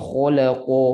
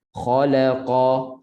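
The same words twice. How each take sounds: First: "khalaqa" with pouted lips, the vowels going towards o; rounded, closed in. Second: Slow "Khalaqa", kha and qa heavy but open, not rounded; thick and open. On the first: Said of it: "jangan bunyi kepung". ("khalaqa" bunyi kepung, bibir muncung) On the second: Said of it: "begitu bunyinya". ("Khalaqa" tebal dan terbuka) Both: Shown as a demonstration.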